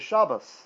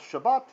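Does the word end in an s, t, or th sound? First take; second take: s; t. First: The word ends with an s sound. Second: The word ends with a plain t sound. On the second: This is the pronunciation used in the class.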